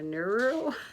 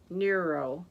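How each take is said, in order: First: The word does not rhyme with bureau. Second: The word rhymes with bureau. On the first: The speaker calls it wrong. "I'm not saying that right" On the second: The speaker calls it right. "Bureau, neuro"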